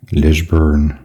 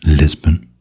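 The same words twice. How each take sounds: First: "Lisburn" said the Northern Irish way, as the locals would; a rough Northern Irish "Lisburn"; Northern Irish accent attempt. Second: Said in the usual way. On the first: Shown as a demonstration. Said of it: "I can't do a Northern Irish accent". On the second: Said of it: "or as the locals would say".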